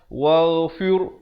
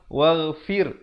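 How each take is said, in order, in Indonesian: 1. Bunyi r berat dan tebal. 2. Bunyi r ringan dan tipis. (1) "Jangan pula di sini kita baca tebal" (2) "fir jadi nipis di sini ra-nya"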